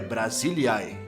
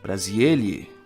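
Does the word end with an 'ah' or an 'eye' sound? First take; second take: eye; ah. First: The word ends with an 'eye' diphthong. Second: The word ends with a plain 'ah' vowel. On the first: The speaker calls it right. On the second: The speaker calls it wrong.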